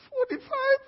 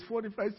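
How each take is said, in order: First: Very high squeaked question; incredulous. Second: Said in the usual way. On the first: Acted. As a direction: echo the number in shocked disbelief. Waiting man hears the count.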